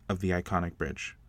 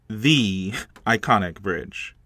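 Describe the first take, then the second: First: The main stress falls on the word bridge. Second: The main stress falls on the word iconic.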